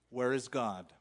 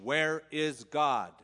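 First: It is asked in a calm, plain voice. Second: It is asked in a firmer, sterner voice.

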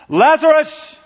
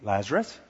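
First: The name is shouted loudly. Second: The name is said quietly and calmly.

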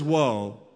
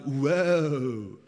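First: It is said in a plain, serious voice. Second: It is said in a Valley-speak voice.

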